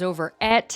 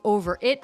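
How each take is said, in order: First: The vowel in 'it' is distorted toward 'et'. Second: The vowel in 'it' is pronounced plainly.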